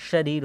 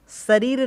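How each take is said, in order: First: "शरीर" begun with sh, as "shareer"; correct sh sound. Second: "शरीर" begun with s, as "sareer"; wrong s sound. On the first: Teacher corrects the word, "शरीर" said as shareer. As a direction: say "शरीर" with a clear sh. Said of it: "शरीर होता है". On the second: Teacher rejects the wrong form, "शरीर" mispronounced as sareer. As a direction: say "शरीर" with s instead of sh. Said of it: "शरीर नहीं होता है". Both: Shown as a demonstration.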